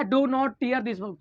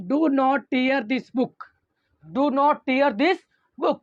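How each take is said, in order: First: Said in the usual way. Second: Each word stretched out slowly; slow example reading. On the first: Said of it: "क्या है do not tear this book". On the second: Shown as a demonstration. Teacher reading the example slowly to students. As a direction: spell out the example sentence at dictation speed. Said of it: "जो सबसे पहला examples लिया हूँ".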